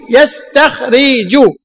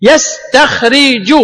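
First: Slow repeat of يستخرج; teacher sounding out يستخرج once more; slow demo. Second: Slow, spelled-out يستخرج; teacher sounding out يستخرج; slow demo. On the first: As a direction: say يستخرج slowly again. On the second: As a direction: draw out يستخرج slowly. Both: Shown as a demonstration. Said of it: "لو قال لنا قائل".

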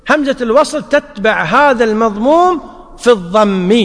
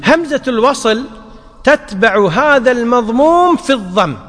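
No difference in how they are said.

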